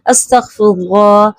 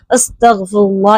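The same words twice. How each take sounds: First: अस्तगफिरुल्लाह clipped and slurred to "astakfe", rushed; rushed wrong way. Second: अस्तगफिरुल्लाह with each syllable "as-tagh-fi-rul-lah" said out clearly; careful correct way. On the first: Teacher showing students the hurried wrong recitation, slurred. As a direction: gabble अस्तगफिरुल्लाह quickly as the wrong example. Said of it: "ऐसा नहीं". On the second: Teacher showing students the proper unhurried recitation. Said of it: "ऐसा नहीं, अस्तगफिरुल्लाह". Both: Shown as a demonstration.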